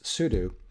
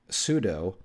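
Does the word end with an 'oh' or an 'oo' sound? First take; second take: oo; oh. First: The word ends with an 'oo' sound. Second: The word ends with a long 'oh' sound. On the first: The speaker calls it right. "so like the verb do" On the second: The speaker calls it wrong. "it's a long O at the end"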